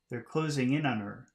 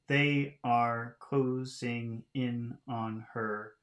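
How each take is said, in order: First: The words are reduced and run together smoothly. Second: Each word is said fully and separately.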